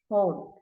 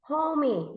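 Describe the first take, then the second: First: The word has one vowel sound, one syllable. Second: The word has an extra vowel, making two syllables. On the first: The speaker calls it right. "it's home. Only one syllable" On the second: The speaker calls it wrong. "You should not going to say homie"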